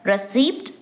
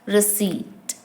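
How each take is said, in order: First: The P sound is pronounced. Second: The P sound is silent. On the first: The speaker calls it wrong. "not pronounced as receipt" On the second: The speaker calls it right. "the P in receipt is silent"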